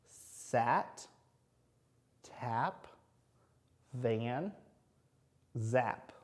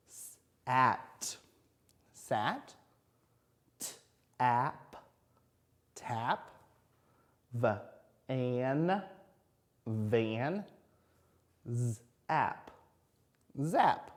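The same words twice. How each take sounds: First: Whole words read briskly; quicker. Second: "Sat", "Tap", "Van", "Zap" split, then blended; sounding out. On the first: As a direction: faster read-through. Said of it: "Now read 'em quicker". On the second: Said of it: "Let's do the short row at the end". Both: Shown as a demonstration.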